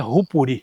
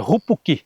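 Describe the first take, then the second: First: The last syllable starts with an r sound. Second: The last syllable starts with a k sound. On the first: The speaker calls it wrong. "não é Rupuri" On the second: The speaker calls it right. "Então é Rupuqui"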